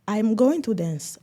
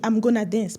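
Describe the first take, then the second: First: Going to is said in full. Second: Going to is reduced to gonna. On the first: This is how a British speaker would say it. "très structuré, avec l'accent" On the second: This is how an American would say it. "pour l'Américain"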